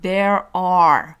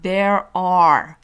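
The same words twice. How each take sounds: First: An American accent with a clearly heard r. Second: The same.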